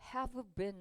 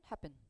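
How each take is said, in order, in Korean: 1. 'have'의 v 소리는 분명하게 발음됩니다. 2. v 소리는 탈락하고 단어들이 뭉개집니다. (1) "have been 하지 않고" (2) "앞에 v는 탈락이 되기 때문에 보통은 have been 이렇게 뭉개져서"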